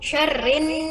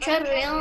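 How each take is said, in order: First: The final n is held with a clear nasal hum. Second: The final n is short without a held hum. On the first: The speaker calls it right. "Dan gunnahnya jelas" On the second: The speaker calls it wrong. "bukan syarrin"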